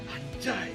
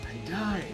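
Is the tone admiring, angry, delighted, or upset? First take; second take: upset; admiring. First: It sounds upset, as if hurt by a loss. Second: It sounds admiring, as if seeing something beautiful.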